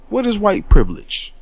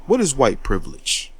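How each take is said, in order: First: Challenging question. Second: Said in the usual way. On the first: Real, not acted. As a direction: throw the question out hard, daring them to answer. Rhetorical challenge, asked twice.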